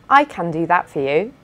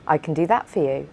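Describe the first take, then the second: First: The vowel in 'can' is a full, open 'a' sound. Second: The vowel in 'can' is a weak, reduced schwa sound. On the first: The speaker calls it wrong. "instead of" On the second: The speaker calls it right. "it's more natural to say"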